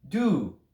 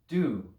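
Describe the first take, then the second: First: "Do" stopped dead as the breath freezes; do then freeze. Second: "Do" with the throat kept wide open. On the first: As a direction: say "Do" and hold still with no release. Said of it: "say do and then freeze". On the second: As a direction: let "Do" flow out on open air. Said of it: "Keep it as open as possible". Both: Shown as a demonstration.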